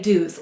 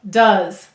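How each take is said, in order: First: The vowel is a full 'oo' sound. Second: The vowel is a short 'uh' sound. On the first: "we're going to say to spell do's. It sounds a little funny" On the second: "this is saying it's schwa sound. Uh"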